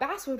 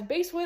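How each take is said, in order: First: The first part rhymes with 'class'. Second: The first part rhymes with 'case'. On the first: "and not Basswood, which is apparently technically correct" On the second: "I pronounced the name of the street ... as Basewood"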